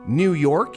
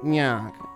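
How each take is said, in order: First: The words are said crisply and clearly. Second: The words are rounded and slurred together. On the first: The speaker calls it right. "instead of saying like New York" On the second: The speaker calls it wrong. "you really round the letters"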